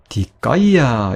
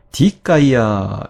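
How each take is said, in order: First: 디카이아 with 카이 accented and drawn out; stress shifted to second syllable. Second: 디카이아 with the opening 디 accented; stress on first syllable. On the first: Teacher explaining the long final vowel, 디카이아 stressed on 카이. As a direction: punch and stretch 카이 in 디카이아. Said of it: "제일 마름절에 강세를 둬서". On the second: Teacher showing what she did not say, 디카이아 stressed on 디. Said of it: "이렇게 읽은 게 아니라요". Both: Shown as a demonstration.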